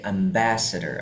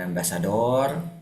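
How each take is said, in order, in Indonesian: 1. Tekanannya jatuh sebelum suku kata terakhir. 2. Tekanannya ditarik panjang pada suku kata terakhir. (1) "tapi ambassador, entah di tengah atau di depan" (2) "kalau Inggris jarang ya ditarik di belakang, bukan bukan ambassador"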